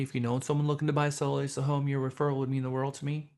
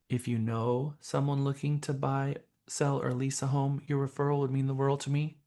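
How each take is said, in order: First: It is spoken at a normal, quick pace. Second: It is spoken slowly, with pauses between parts.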